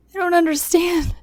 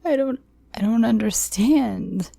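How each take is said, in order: First: High, tearful pleading; choked, confused apology; pleading sobs. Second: High, crying stammer; frightened pleading, voice up high; tearful plea. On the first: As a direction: beg through tears, voice up high. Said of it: "I pleaded behind sobs". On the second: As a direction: stumble over the words through tears. Narrator pleading in tears. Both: Acted.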